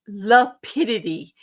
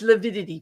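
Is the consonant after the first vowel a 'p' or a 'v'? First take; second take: p; v. First: The word is said with a 'p' sound. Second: The word is said with a 'v' sound. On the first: The speaker calls it wrong. "He says lapidity" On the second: The speaker calls it right. "It's lavidity"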